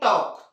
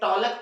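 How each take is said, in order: First: The L sound is left out of the word. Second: The L sound is pronounced in the word. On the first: The speaker calls it right. "क्या पढ़ते हैं? टॉक" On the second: The speaker calls it wrong. "इसे टॉलक पढ़ते हैं क्या? नहीं"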